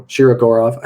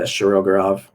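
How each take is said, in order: First: Shirogorov with a clear "SHEE-ro" start, louder; careful second try. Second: Said in the usual way. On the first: Real, not acted. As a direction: sound out Shirogorov firmly, "shee-ro-GOR-ov". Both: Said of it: "I always say that wrong".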